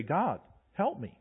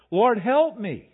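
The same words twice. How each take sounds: First: Quiet prayer. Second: Higher, louder, slow desperate plea; higher, louder panicked cry of help me. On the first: Shown as a demonstration. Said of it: "I'm gonna look to heaven and say". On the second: Retold or imitated. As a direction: beg the Lord as the army closes in. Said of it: "We can imagine".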